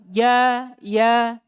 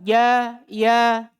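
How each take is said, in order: Both takes have the same delivery.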